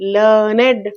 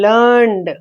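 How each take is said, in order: First: The word is said as two syllables. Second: The word is said as one syllable. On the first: "it is to be pronounced as learned, learned. Two syllables" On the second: "only one vowel sound, it is a monosyllabic word"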